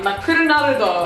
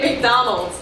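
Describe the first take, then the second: First: It is said with Japanese syllables and vowels. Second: It is said with English sounds and syllables. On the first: "Japanese pronunciations" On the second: "We say McDonald's"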